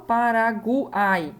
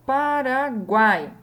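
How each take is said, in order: First: "Paraguai" broken as Pa-ra-gu-ai; wrongly split triphthong. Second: Slow, loud "Paraguai" with "guai" as one syllable; joined triphthong. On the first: Teacher showing how Paraguai is not said, gu separated from ai. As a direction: split "guai" into gu and ai. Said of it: "eu não falo". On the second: Teacher giving Paraguai as example, last syllable joined. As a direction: stretch "Paraguai", keeping "guai" all together. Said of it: "eu falo tudo junto". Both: Shown as a demonstration.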